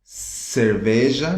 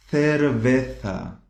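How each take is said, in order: First: Said in the usual way. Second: "Cerveza" slowly, th for C and Z; Spain th sound. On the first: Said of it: "essa palavra aqui é muito". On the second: Shown as a demonstration. Teacher contrasting with Portuguese, slow Spain th. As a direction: draw out "Cerveza" as "thervetha". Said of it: "essa pronúncia é muito comum".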